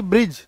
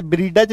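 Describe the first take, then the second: First: ब्रिज as one syllable, silent D; correct pronunciation. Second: ब्रीडज with ड fully voiced; wrong pronunciation. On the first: Teacher gives the right reading, correct pronunciation. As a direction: drop the D and say ब्रिज. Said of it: "तो डी को पढ़ो ही मत". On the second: Teacher warns class not to read so, wrong pronunciation. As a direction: say ब्रीडज as ब्री plus डज. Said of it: "ऐसे ब्रीडज नहीं पढ़ेंगे।". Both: Shown as a demonstration.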